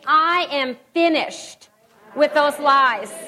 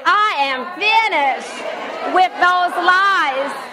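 First: It is said plainly, without special force. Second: It is said forcefully, with authority.

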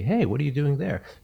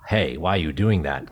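First: It sounds curious and friendly. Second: It sounds critical and accusing.

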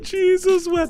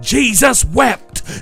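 First: It is said softly with an awed gasp. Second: It is yelled loudly like a preacher.

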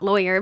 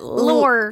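First: It sounds like the English word lawyer. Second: It sounds like the English word lore. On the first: The speaker calls it wrong. "Not lawyer" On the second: The speaker calls it right. "but lore"

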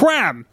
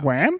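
First: It is said as an excited exclamation. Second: It is said as a puzzled question.

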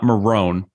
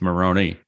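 First: The final vowel is silent. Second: The final vowel is pronounced. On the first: The speaker calls it wrong. "It's not Marone" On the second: The speaker calls it right. "Pronounce the E. It's Maroni"

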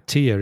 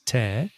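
First: The vowel sounds like the one in 'ear'. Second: The vowel sounds like the one in 'air'. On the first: It means a drop from the eye. "So tear is lágrima" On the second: It means to rip something apart. "we're pronouncing T-E-A-R as tear, which I think in Spanish is rasgar"

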